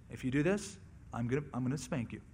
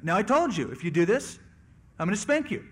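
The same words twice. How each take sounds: First: Soft, low parent's warning; acted parent, quietly warning a small child; understated, softly spoken threat; mild first warning. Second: Acted parent getting firmer and louder; raised-voice second warning to a child; higher, more forceful threat, short of yelling; escalating parental warning. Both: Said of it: "until there's a peak level of volume".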